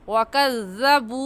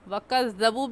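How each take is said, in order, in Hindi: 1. अंतिम स्वर लंबा खींचा जाता है। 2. अंतिम स्वर छोटा बोला जाता है। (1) "सही है वकज़्ज़बू। बू को एक अलिफ की मिक़दार खींचेंगे" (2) "गलत है"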